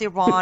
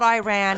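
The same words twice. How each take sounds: First: It is said with a non-American pronunciation. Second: It is said with an American pronunciation. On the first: The speaker calls it right. "it's Iran" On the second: The speaker calls it wrong. "It's always the American accent because it's not Iran"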